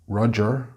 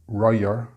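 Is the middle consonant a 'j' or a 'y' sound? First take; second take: j; y. First: The middle consonant is a 'j' sound. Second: The middle consonant is a 'y' sound. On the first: The speaker calls it right. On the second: The speaker calls it wrong.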